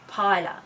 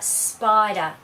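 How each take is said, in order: First: The s is dropped, starting with p. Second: The word begins with an s p cluster.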